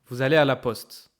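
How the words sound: The pitch falls at the end. It is a statement. "When it's a declaration, the tone goes down"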